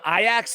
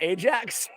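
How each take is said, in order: First: The name is said with a Dutch pronunciation. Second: The name is said with an English pronunciation. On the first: This is how someone from Amsterdam says it. "You pronounce him Ajax" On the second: This is the usual way people say it. "and not Ajax?"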